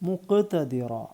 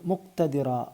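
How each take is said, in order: First: The q sound is strongly, emphatically articulated. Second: The q sound is a plain light k. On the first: The speaker calls it right. "മുക്ക് ക്ക് എടുത്ത് പറയണം" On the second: The speaker calls it wrong. "തെറ്റാണ്"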